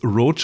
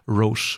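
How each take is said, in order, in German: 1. Es klingt wie das englische Wort roach. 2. Es klingt nicht wie das englische Wort roach. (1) "als Gag wird es Roche ausgesprochen, weil Schabe" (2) "Aber ich sag's Roche"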